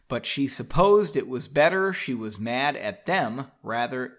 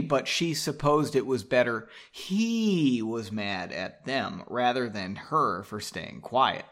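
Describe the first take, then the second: First: Said in the usual way. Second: "he" drawn out and stressed; slow reading, leaning hard on "he"; stress on corrected word. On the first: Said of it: "oh, that's wrong". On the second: Real, not acted. Reader corrects the book's pronoun, punching "he". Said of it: "Probably should be".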